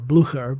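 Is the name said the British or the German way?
German. The name is said in a German way. "the correct pronunciation if you're going with the German or Prussian"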